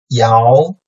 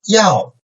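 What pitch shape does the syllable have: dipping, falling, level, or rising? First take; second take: rising; falling. First: The pitch rises from mid to high. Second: The pitch falls sharply from high to low.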